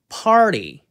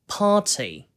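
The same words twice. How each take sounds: First: The t is a soft flap after an r. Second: The vowel is drawn out with a crisp t. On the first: "미국식으로는 party, party 그 t를 그냥 넘기는데요" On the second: "영국식으로는 party, party 앞에 R 발음도 늘어뜨리는 거 살리고 명확한 T 발음도 살려가지고"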